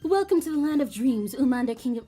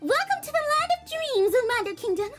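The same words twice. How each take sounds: First: It is read in the speaker's plain voice. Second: It is said in a put-on Kawakami voice.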